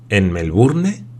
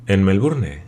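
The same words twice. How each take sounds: First: "Melbourne" climbing sharply at the end; questioning rise. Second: Said in the usual way. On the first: Acted. Glenarvan questioning the sailor, "Melbourne" rising in question.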